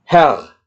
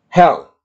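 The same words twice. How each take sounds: First: Herr again, short and clipped; short vowel repeated. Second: Herr said short and quick; short vowel. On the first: Teacher repeats the short-vowel word. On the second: Teacher models a short vowel to students. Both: Shown as a demonstration. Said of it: "maka pengucapannya adalah cepat".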